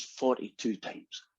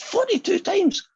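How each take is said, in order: First: Quiet confession. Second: High, drawn-out mock disbelief; incredulous echo. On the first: Acted. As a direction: own up softly and slowly, acting it out. Reluctant confession of infidelities in joke. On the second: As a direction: repeat it high and slow, acting astonished. Saint Peter reacts to the confession.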